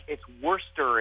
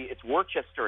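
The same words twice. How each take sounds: First: "Worcester" said as Wooster, two syllables; "Worcester" clipped to Wuh-ster; local pronunciation. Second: "Worcester" said Wor-chester, three syllables; "Worcester" spelled out as Wor-ches-ter; spelling pronunciation. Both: Shown as a demonstration. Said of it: "how did you get Worcester out of Worcester".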